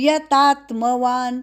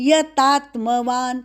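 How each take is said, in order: Both takes have the same delivery.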